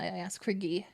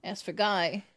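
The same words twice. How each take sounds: First: "Guy" said as "ghee"; French pronunciation. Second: "Guy" said to rhyme with "sky"; English pronunciation. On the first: Shown as a demonstration. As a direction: say "Guy" like "ghee", rhyming with "key". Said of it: "spelled G U Y, I ask for Guy". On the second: Retold or imitated. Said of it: "because one time I asked for Guy".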